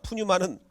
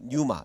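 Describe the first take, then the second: First: The word begins with a sounded p. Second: The word begins without any p sound. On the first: The speaker calls it wrong. "푸뉴마는 아니고" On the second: The speaker calls it right. "푸자가 묵음이기 때문에 뉴마 이렇게"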